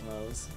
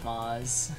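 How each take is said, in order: First: The vowel sounds like the one in Mozart. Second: The vowel is not the one in Mozart. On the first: "not Mose like Mose" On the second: "he's Moz like Moz"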